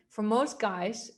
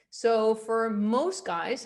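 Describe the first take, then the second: First: Said in the usual way. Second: Slow demo. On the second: Shown as a demonstration.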